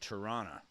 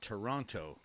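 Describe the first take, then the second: First: The second t is dropped. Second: The second t is clearly pronounced. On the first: This is how Canadians say the city's name. "Canadians call it Tirana or Toronto. We don't pronounce the T" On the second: This is how Americans say the city's name. "Americans call it Toronto"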